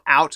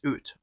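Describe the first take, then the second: First: The vowel in out is American-sounding. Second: The vowel in out is Canadian-sounding. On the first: "It's not out, Americans" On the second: "It's out"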